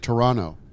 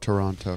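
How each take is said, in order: First: The second T is softened or dropped. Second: The second T is clearly pronounced. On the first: The speaker calls it right. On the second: The speaker calls it wrong.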